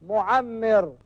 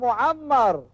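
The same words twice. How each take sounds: First: The doubled m is followed by an 'i' vowel. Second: The doubled m is followed by an 'a' vowel. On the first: The speaker calls it wrong. "بكسرها" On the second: The speaker calls it right. "بفتح الميم المشددة"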